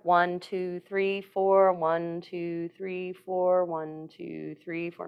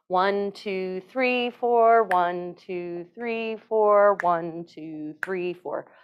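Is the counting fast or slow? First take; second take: fast; slow. First: The counting is said fast. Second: The counting is said more slowly.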